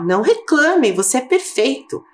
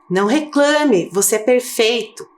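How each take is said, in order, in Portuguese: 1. Lido com ênfase forte e indignada. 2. Lido em tom simples e uniforme.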